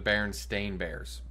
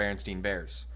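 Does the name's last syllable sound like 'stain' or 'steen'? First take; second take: stain; steen. First: The last syllable of the name sounds like 'stain'. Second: The last syllable of the name sounds like 'steen'. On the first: The speaker calls it right. "It's the Berenstain Bears" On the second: The speaker calls it wrong. "everyone says the book is called the Berenstein Bears"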